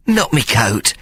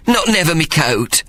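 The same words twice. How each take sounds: First: Small pleading whimper. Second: Much higher, pleading whimper. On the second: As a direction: plead it, voice rising high. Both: Acted. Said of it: "he whimpered".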